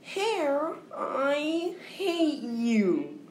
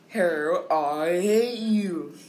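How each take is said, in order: First: Drawn-out high mock anger; high, slow mock hatred. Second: Loud slow hate. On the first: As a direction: stretch out hate in a high voice. Lady shouts at hair. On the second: Acted. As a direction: bellow it slowly at the hair. Man shouts at hair.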